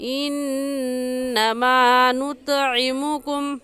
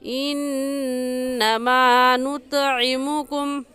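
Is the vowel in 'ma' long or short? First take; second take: long; long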